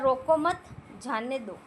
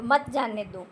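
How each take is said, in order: First: रोको मत joined, then a break before जाने दो; रोको मत rising, pause, जाने दो falling; pause after मत. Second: मत जाने दो run together as one phrase; no break between मत and जाने; मत joined to जाने. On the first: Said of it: "उसी प्रकार". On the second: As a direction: say मत जाने दो in one unit, falling at दो. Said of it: "विराम चिन्ह लगाया तो". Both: Shown as a demonstration.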